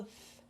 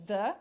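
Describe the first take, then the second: First: "th" with air only, no voice; TH sem som. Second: "the" with a voiced, buzzing TH; TH com som. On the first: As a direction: blow a voiceless "th". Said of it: "ou eu falo th". ("th" soprado, sem vibrar a voz) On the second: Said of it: "Ou eu falo the". ("the" com TH sonoro) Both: Shown as a demonstration.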